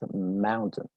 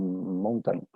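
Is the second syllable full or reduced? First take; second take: reduced; full. First: The second syllable is reduced, almost gone. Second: The second syllable has a full vowel. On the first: The speaker calls it right. "La pronunciación correcta es mountain" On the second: The speaker calls it wrong. "Muy probablemente la pronuncias como mountain"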